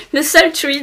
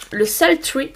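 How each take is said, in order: First: Said in the usual way. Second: Shade name Sultry said the English way, softer; English accent. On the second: Real, not acted. Vlogger reads out her lipstick shade in an English accent. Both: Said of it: "Oh, quel accent anglais".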